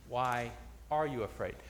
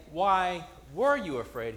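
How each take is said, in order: First: ARE set apart in a low, soft voice; stress on ARE. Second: WERE stressed as the wrong tense. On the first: Preacher corrects to what Jesus says, quietly stressing ARE. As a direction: quietly lean on "are" for the present tense. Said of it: "He says". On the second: Preacher shows what Jesus doesn't say, stressing WERE. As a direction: lean on "were" to mark the contrast. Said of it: "He doesn't say". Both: Shown as a demonstration.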